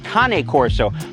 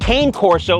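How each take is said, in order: First: Cane sounds unlike the English word cane. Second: Cane sounds like the English word cane.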